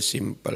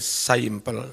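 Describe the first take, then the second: First: The first vowel is a plain 'i' sound. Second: The first vowel is an 'ai' sound. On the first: The speaker calls it right. "Simple macane Indonesia simple" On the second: The speaker calls it wrong. "Kalau Inggris I itu jadi I"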